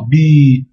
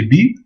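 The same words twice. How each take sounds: First: "bi" with a long held i; prolonged vowel. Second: Said in the usual way. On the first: Shown as a demonstration. Teacher showing the prolongation sign, "bi" with drawn-out i. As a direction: stretch the vowel of "bi". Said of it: "Et la prolongation". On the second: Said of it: "il y a un trait en bas".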